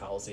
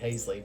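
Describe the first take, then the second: First: The name is said with an L sound. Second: The name is said without an L sound. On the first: The speaker calls it right. "I think it's Halsey" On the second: The speaker calls it wrong. "I used to say Hazley"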